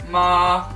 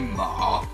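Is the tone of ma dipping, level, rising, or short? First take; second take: level; dipping. First: The pitch is long and held level. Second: The pitch is low, dips, then rises slightly. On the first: "qui est long et allongé" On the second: "assez grave en fait, qui descend et qui remonte un peu à la fin"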